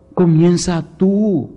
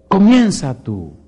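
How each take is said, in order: First: Slow, with tú landing heavy and falling; stress on tú. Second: Slow, "Comienza" hit high and loud; stress on comienza. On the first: Preacher pointing at each listener, stressing tú. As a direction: lean hard on "tú". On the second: Preacher urging listeners to act, stressing comienza. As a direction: punch the word "Comienza". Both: Shown as a demonstration. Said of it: "repeated with shifted stress".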